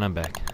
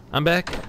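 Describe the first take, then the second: First: Lower, softer falling I'm back; muttered low repeat; low quiet. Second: High, bright rising I'm back; pitched-up cheerful return; excited. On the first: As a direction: say it again under your breath. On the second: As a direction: announce your return with a lift. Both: Real, not acted. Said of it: "repeats I'm back twice".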